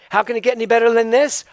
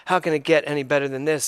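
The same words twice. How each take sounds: First: Delighted wonder. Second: Dry mocking rhetorical question; sarcastic. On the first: Joyful exclamation of wonder. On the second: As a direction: say it like you don't believe a word. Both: Shown as a demonstration.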